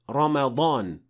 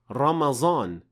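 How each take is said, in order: First: The middle consonant is an emphatic d-like sound. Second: The middle consonant is a plain z sound. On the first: The speaker calls it right. "Originally, it is Ramadan" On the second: The speaker calls it wrong. "de-evolved into Ramazan"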